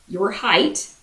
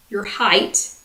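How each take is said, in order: The two takes are said the same way.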